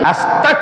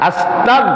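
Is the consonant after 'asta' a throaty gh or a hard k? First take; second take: k; gh. First: The consonant after 'asta' is a hard k. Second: The consonant after 'asta' is a throaty gh. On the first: The speaker calls it wrong. "অনেকে পড়ে কি আস্তাক, কাফ হয়ে যাবে, তাহলে কুফরি।" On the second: The speaker calls it right. "এটা হলো গাইন, গাইন।"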